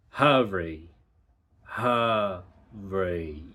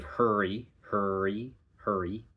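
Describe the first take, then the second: First: "hurry" as "huh-ree", R starting the second syllable. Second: "hurry" with R through the first vowel; color the first vowel with R; American hurry. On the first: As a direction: clean vowel, then R. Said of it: "The R is on the second syllable". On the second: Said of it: "like we do". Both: Shown as a demonstration.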